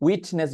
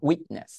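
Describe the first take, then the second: First: "উইটনেস" with the T fully sounded; released T. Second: "উইটনেস" with the T held back; no T release in "উইটনেস"; natural stopped T. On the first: Teacher showing what sounds unnatural, released T. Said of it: "বললে ভালো লাগবে না". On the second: Teacher showing what sounds natural, stopped T. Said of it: "অনেকটা natural শোনাবে". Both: Shown as a demonstration.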